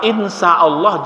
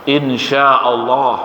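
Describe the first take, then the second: First: The middle consonant is a plain s sound. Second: The middle consonant is a sh sound. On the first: If God is evil. "mirip-mirip tapi lain maknanya. Kalau insya Allah, jika Allah jahat" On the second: If God wills. "jika Allah menghendaki"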